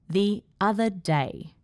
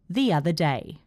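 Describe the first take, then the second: First: The words are split by small pauses. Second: The words are joined with an added 'y' sound. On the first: The speaker calls it wrong. "A was a bit awkward. The other day has two awkward pauses" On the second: The speaker calls it right. "C is where we get the pronunciation phenomenon, intrusion"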